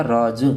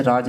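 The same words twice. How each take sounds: First: राज said as raaz, with a buzzing z instead of j; nukta z sound. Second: Said in the usual way. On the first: Shown as a demonstration. Teacher showing students the nukta sound: raaz with a z. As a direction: end राज on a clear z, not a j. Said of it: "इस तरह से बोला जाता है तो रहस्य". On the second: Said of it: "इस तरह से बोला जाता है".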